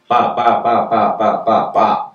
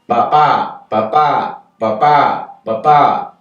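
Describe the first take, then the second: First: All syllables have about the same length. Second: Some syllables are longer, others are shorter. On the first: This is the rhythm of Spanish. "every syllable is more or less the same length" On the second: This is the rhythm of English. "But in English, we have"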